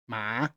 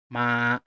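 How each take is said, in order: First: The pitch rises like a question. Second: The pitch stays level and steady. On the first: "You have to pull your voice up" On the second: "Keep your throat level on the first tone"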